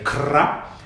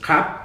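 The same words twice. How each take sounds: First: The r after the k is rolled. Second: The r after the k is dropped. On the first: This is the form taught to foreign learners. "Thais will tell the foreign learner to say" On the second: This is how Thais actually say it. "don't r it. Don't let it hit the palate. So just"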